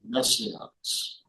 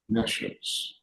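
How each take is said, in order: First: It is said unlike the word conscience. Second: It is said like the word conscience. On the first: The speaker calls it wrong. "I have mispronounced for many years" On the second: The speaker calls it right. "actually it's nescience, like a conscience"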